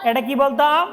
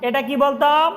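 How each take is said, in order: No difference in how they are said.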